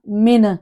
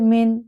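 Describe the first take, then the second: First: The final n is moved with an added bounce. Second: The final n is held steady without movement. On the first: The speaker calls it wrong. "इसको मैंने ऐसे नहीं पढ़ा मिन" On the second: The speaker calls it right. "मैंने जज्म को हिलाया नहीं है, मैंने बड़े मारूफ तरीके से पढ़ा है"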